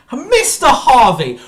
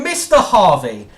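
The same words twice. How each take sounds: First: Loud, high, slow shout of the name; slow, high, bellowed "Mister Harvey"; drawn-out furious shout. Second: Loud call with a laugh in it; half-laughing furious address; scornful shout of his name through a laugh; angry laughing call. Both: Real, not acted. Furious rant at Brian.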